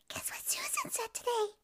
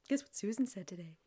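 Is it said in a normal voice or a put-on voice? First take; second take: put-on; normal. First: It is said in a put-on mongoose voice. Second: It is said in her normal voice.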